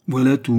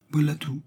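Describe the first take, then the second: First: Voilà tout repeated louder, with firmer weight on voilà; a louder, insistent echo of voilà tout. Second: Said in the usual way. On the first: A narrator's reading. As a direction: hit voilà tout harder the second time.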